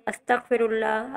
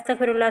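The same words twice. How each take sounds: First: It is said slowly and calmly. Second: It is said quickly and hurriedly.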